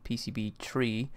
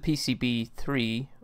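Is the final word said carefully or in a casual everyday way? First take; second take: casual; carefully. First: The final number is said in casual everyday speech. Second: The final number is said carefully and clearly.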